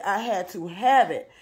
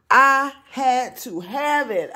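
First: Said in the usual way. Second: High, slow, drawn out with delight; gushing excited. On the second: Real, not acted. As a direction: savor every word of wanting it. Thrift store find excitement.

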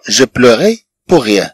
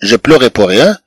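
First: Each word said slowly and clearly, like dictation; slow repeat. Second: Said in the usual way. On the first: Shown as a demonstration. Teacher to students, slowly modelling the sentence. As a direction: lay the phrase out slowly for learners. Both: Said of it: "teacher repeating the phrase".

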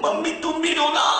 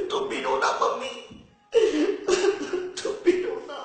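First: Said in the usual way. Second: Giggling through a mock plea; can't keep a straight face; half-whispered giggly whine; breaking into laughter.

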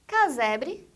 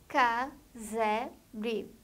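First: Said in the usual way. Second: "casebre" slowly split into ca, se, bre; three separate beats in "casebre"; syllable by syllable. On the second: Shown as a demonstration. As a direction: pause after each syllable of "casebre". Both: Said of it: "A palavra que tem três sílabas".

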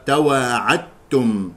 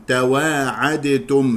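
First: "تواعدتم" said slowly as tawaa'attum, doubled t; dal assimilated. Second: "تواعدتم" said tawaa'adetum, slow, with a released d before t; dal pronounced separately. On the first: Teacher giving the correct reading, slow "تواعدتم" with tt. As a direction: merge the d of "تواعدتم" fully into the t. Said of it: "الإدغام هو الصواب". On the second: Teacher warning of a mistake, "تواعدتم" slowly with audible d. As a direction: sound out the d in "تواعدتم", then t. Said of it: "هذا خطأ". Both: Shown as a demonstration.

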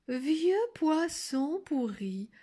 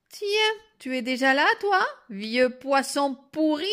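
First: Sweetest voice. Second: Loud, higher, rude challenge; insolent girl. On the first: A narrator's reading. Wolf repeats the girl's insult, in his sweetest voice. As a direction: draw the words out ever so gently. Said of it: "prit sa voix la plus douce". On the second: Acted. Girl spots the wolf by the bed, insolent. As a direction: throw the insult brashly.

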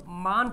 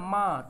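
First: मान with a fully sounded n; full final n. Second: माँ with a nasal vowel and no closing n; nasal ending. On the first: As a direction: close मान on a clear tongue-tip n. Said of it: "मान थोड़ी नहीं लिखते हम लोग". (मान में नून पूरा बोलें) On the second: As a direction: let माँ end in the nose. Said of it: "हम लोग बोलते हैं माँ". (माँ की आवाज़ नाक से निकालें) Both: Shown as a demonstration.

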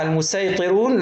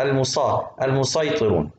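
First: المسيطرون with a thin, plain "s"; seen reading. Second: المسيطرون with a heavy emphatic "s", lower pitch; sad reading. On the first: Teacher showing the less common reading, seen in المسيطرون. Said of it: "يمكن أقرأها". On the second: Teacher showing the better-known reading, sad in المسيطرون. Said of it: "لكن الصاد إلها الأولوية أشهر". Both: Shown as a demonstration.

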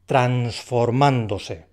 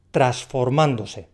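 First: "transformándose" very slow, sounding the n before the s; careful n before s. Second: "transformándose" slow, with the n before the s left out, "trasformándose"; n dropped. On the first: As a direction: stretch "transformándose" so the n clearly comes before the s. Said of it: "la N antes de la S". ("transformándose" muy lento, marcando la n antes de la s) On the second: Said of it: "en la pronunciación lo simplifica". ("transformándose" lento, sin la n: "trasformándose") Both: Shown as a demonstration.

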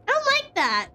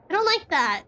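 First: High frightened yelp, much higher; scared squeal. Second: Said in the usual way. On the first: Real, not acted. Scared by game, repeats line.

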